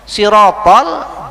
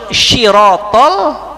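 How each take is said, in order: First: The word begins with a plain s sound. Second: The word begins with an sh sound. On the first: It means road or path. The speaker calls it right. "sirotol jalan" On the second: The meaning of the word changes. The speaker calls it wrong. "kada kau nyambat lalu antara sot lawan apa shin"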